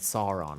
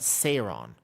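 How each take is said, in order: First: The name is said like 'Sore-on', with 'sore'. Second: The name is said like 'Saron', with 'sah'. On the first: The speaker calls it wrong. "like it was from Lord of the Rings" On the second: The speaker calls it right. "Like Yogg-Saron"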